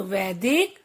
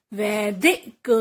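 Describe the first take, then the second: First: Said in the usual way. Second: "वैदिक" split as वै-दि-क; teacher's broken-up "वैदिक"; sounding out. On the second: Shown as a demonstration. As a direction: separate each syllable of "वैदिक". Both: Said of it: "कुछ ए के शब्द भी हैं".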